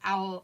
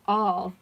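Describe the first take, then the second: First: The vowel sounds like the one in 'owl'. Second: The vowel sounds like the one in 'all'.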